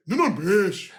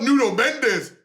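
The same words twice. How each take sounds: First: Put-on Brazilian pronunciation of Mendes, ending in a "sh"; hammed-up Brazilian accent on the name. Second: Said in the usual way. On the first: Shown as a demonstration. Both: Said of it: "It's not Nuno Mendes".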